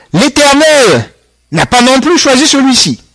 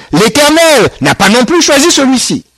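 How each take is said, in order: Both takes have the same delivery.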